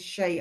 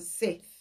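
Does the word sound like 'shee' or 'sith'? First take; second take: shee; sith. First: The word sounds like 'shee' with no ending consonant. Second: The word ends with a 'th' sound. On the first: The speaker calls it right. "It's the she. I looked it up" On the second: The speaker calls it wrong. "I've been pronouncing that as a Sith"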